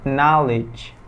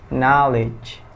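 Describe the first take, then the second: Both takes have the same delivery.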